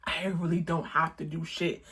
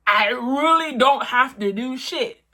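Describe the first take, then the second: First: Said in the usual way. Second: Don't pushed higher and louder; emphatic repeat, "don't" stressed. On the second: Shown as a demonstration. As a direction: lean hard on "don't" in the repeat.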